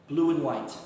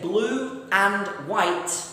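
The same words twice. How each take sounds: First: The words run together, with 'and' cut to n. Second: Each word is said fully and separately. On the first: "when we want to speak quickly, this becomes n"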